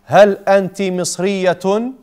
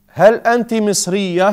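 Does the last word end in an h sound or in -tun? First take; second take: -tun; h sound. First: The last word ends in a full -tun ending. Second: The last word ends in a soft h sound. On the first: "they want you to pronounce it fully" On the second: "You've really to hear the ha"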